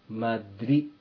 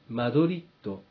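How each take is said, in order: First: The word ends on a vowel, no d. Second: The word ends with a clear d sound. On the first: The speaker calls it right. "D は発音しません。それですから、マドリ" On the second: The speaker calls it wrong. "普通、マドリッドと認識されていますが"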